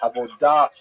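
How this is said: It is said with a modern Sephardic Hebrew pronunciation.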